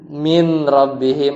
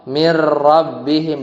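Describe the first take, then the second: First: The n is kept before the r. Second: The n merges into the following r. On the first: The speaker calls it wrong. "bukan min rabbihim" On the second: The speaker calls it right.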